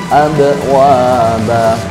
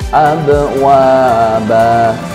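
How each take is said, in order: No difference in how they are said.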